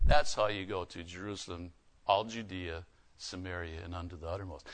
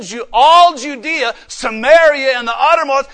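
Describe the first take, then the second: First: Much lower and much softer, almost breathed; hushed repeat. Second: Loud proclamation. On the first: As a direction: drop to a near hush after the shout. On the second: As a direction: call out each place to the hall. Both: Acted. Loud listing then whispered repeat.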